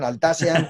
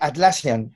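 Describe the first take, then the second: First: The name begins with the sounds 'Al'. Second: The name begins with the sounds 'At'. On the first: The speaker calls it wrong. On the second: The speaker calls it right.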